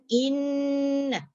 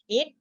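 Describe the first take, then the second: First: The nasal hum passes freely through the nose. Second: The nasal hum is choked off by pinching. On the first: "kalau dilepaskan inna keluar daripada hidung" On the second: "kalau kita sumbat in, ah tak boleh"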